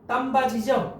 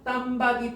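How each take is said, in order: First: The last syllable begins with a 'j' sound. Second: The last syllable begins with a 'd' sound. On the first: The speaker calls it right. "디귿이 지읒으로 바뀐 다음에 뒤로 넘어가니까 땀바지" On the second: The speaker calls it wrong. "땀바디야?"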